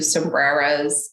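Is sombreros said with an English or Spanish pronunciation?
English. The word is said with an English pronunciation. The speaker calls it wrong.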